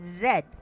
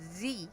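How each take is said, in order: First: The letter is said the Canadian way. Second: The letter is said the American way. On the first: "she said Z" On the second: "instead of saying Z"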